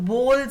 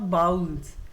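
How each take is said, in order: First: The vowel sounds like 'oh'. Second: The vowel sounds like 'ow'. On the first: The speaker calls it right. "बोल्स है ये" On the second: The speaker calls it wrong. "This is not बाउल्स"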